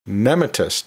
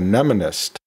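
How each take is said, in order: First: A T sound comes before the ending. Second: An N sound comes before the ending. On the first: The speaker calls it wrong. "I sometimes mistakenly use mnematist" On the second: The speaker calls it right. "instead of mnemonist"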